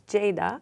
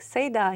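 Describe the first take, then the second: First: The name begins with a 'j' sound. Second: The name begins without a 'j' sound. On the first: This is how it is said in its original language. The speaker calls it right. "but it's Ceyda" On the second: This is how people locally say it. The speaker calls it wrong. "it's like Ceyda here"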